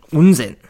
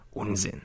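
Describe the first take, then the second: First: Louder and higher, snapping out of it; firm loud denial; forceful dismissal. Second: Murmured under the breath, much softer; barely voiced brush-off; a quiet, shaken denial; hushed dismissal. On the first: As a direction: cut the thought off sharply. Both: A narrator's reading. Dismissing a wild thought.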